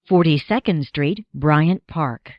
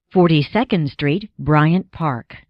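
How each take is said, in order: Both takes have the same delivery.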